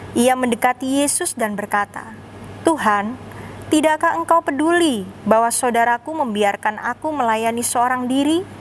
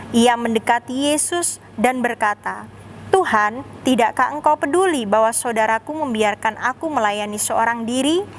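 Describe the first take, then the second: Both takes have the same delivery.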